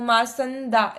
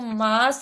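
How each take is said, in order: First: The nasal sound comes on the second syllable. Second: The nasal sound comes on the first syllable. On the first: The speaker calls it wrong. "स के ऊपर आप dot लेके आ रहे थे" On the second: The speaker calls it right. "जबकि वो मांस है वो"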